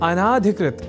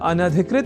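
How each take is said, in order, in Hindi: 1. पहले 'n' के बाद का स्वर दीर्घ है। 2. पहले 'n' के बाद का स्वर ह्रस्व है। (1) "अनाधिकृत इस रूप में न केवल लिखने की ही अपितु बोलने की भी प्रवृत्ति या कुप्रवृत्ति बढ़ गई है" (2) "इस रूप में ही है सर्वथा शुद्ध"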